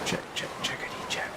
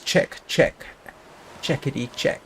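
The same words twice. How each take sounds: First: It is whispered quietly. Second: It is said in a normal voice. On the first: "I'm whispering to myself" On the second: "What I actually said was"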